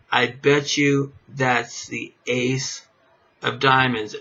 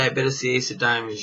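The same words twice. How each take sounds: First: Slow, deliberate bet on the card; slow confident bet. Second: Fast, tossed-off bet on the card; quick bet. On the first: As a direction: draw out the bet to sell it. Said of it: "you're gonna tell somebody". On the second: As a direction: rattle off the bet in passing. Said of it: "and when you say". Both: Shown as a demonstration.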